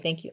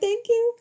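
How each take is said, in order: First: It sounds sarcastic and curt. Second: It sounds warm and sincere.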